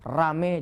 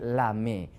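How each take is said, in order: First: The word begins with an r sound. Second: The word begins with an l sound. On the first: This is the intended word. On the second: A small child who cannot say r says it this way.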